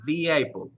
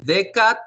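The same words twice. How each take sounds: First: "the" pronounced "di", with an ee sound, before "apple". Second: "The" pronounced "de", with a short e, before "cat". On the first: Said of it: "aquí pronunciamos, hacemos pronunciar la E". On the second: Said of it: "Aquí es con D, E". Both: Shown as a demonstration.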